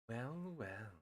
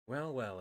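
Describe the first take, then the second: First: It is said in a deep, sultry voice. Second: It is said in a plain reading voice.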